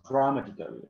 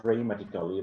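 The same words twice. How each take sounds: First: "dramatically" said as "drah-matically"; correct pronunciation. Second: "dramatically" said wrongly as "dray-matically"; "dramatically" starting like "dray"; mispronounced. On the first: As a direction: open "ah" in the first syllable of "dramatically". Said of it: "but it is dramatically". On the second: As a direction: put an "ay" in the first syllable of "dramatically". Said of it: "It is not dramatically". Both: Shown as a demonstration.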